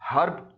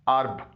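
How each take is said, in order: First: The h at the start is pronounced. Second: The h at the start is silent. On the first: The speaker calls it wrong. "आमतौर पर हम लोग हर्ब बोलते हैं" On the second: The speaker calls it right. "इसका सही तलफ़ुज़ है अर्ब"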